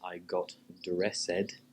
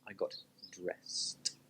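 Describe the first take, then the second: First: The ending is an extra 'id' syllable. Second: The ending is just a T sound. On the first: The speaker calls it wrong. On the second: The speaker calls it right. "it's just a T sound"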